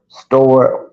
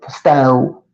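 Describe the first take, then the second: First: It is said with the full r ending. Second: It is said Southern style, dropping the r.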